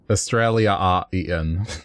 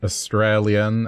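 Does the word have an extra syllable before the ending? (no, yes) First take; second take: yes; no. First: It has an extra syllable before the ending. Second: It is said with the usual syllables. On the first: "Just the extra pronunciation" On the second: "if we said Australian"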